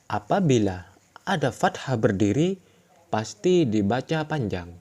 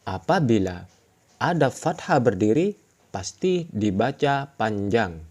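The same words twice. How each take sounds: No difference in how they are said.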